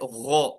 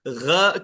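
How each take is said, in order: First: The sound is heavy, with the mouth open. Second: The sound is thin, with the mouth less open. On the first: The speaker calls it right. "मुंह जो है खुला होना चाहिए, आवाज ऊपर की तरफ जाएंगी" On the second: The speaker calls it wrong. "आवाज बारीक हो गई"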